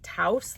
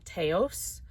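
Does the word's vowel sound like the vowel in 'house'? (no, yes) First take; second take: yes; no. First: The vowel sounds like the one in house. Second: The vowel does not sound like house. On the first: The speaker calls it right. "That's how you say it, like house" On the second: The speaker calls it wrong.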